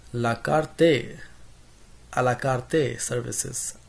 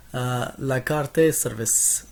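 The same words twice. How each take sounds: First: A la carte in a light mock Hispanic accent, karte with a rolled tap. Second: Said in the usual way. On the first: Teacher slipping into a playful Hispanic accent on la carte. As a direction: toss off la carte Spanish-style, la KAR-te. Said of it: "in, like, in a Hispanic accent". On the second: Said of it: "I don't know why I said that".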